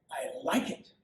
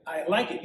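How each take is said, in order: First: First one nearly whispered, breathy and soft; hushed approval. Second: Said in the usual way. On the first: Acted. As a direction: breathe it, almost to yourself. King repeats his approval.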